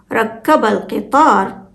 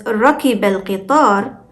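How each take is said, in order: First: ركب said as rakkaba, with a held double k; doubled k, rakkaba. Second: ركب said as rakiba, short k followed by i; undoubled k in ركب, rakiba; single k, rakiba. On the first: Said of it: "the shadda on k changes the meaning". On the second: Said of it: "when we pronounce it as". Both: Shown as a demonstration.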